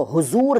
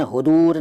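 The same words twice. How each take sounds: First: Said in the usual way. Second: हुदूर with d replacing z. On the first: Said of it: "हुदूर नहीं कहते". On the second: Shown as a demonstration. Teacher showing the rejected title, हुदूर with d for z. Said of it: "नहीं कहते".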